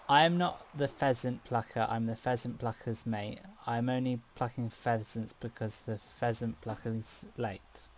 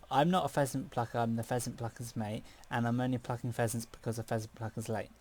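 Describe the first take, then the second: First: It is said at a normal pace. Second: It is said about twice as fast.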